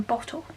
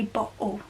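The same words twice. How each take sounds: First: "bottle" with a crisp t in the middle; clear t. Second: "bottle" with a glottal stop in place of the t. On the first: Contrasting for viewers the "bottle" with a t. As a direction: say "bottle" sounding the t fully. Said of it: "you have to use more muscles to say it than bottle". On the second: Coaching viewers to try the glottal "bottle". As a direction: say "bottle" as "bo'le", catching the t in the throat. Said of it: "So you try it now, when you say bottle". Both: Shown as a demonstration.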